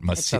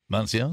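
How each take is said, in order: First: The word is said without an n sound. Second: The word is said with an n sound. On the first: The speaker calls it right. "I got it" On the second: The speaker calls it wrong. "I'm putting the N"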